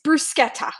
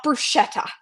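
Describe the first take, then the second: First: "bruschetta" with a hard k, brus-KET-ta; Italian k sound in "bruschetta"; correct bruschetta. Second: "bruschetta" with sh, bru-SHET-ta; the wrong sh sound in "bruschetta". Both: Shown as a demonstration. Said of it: "not bruschetta".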